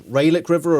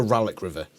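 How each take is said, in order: First: "Ralek" with a long AY, RAY-lick; contrasted pronunciation. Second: "Ralek" with a short A, RAL-ick; contrasted pronunciation. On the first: Asking Geek to choose, "Ralek" said as RAY-lick. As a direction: make "Ralek" begin like "ray". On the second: Asking Geek to choose, "Ralek" said as RAL-ick. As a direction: say "Ralek" with an open first vowel, no AY. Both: Shown as a demonstration. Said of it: "I would have pronounced it".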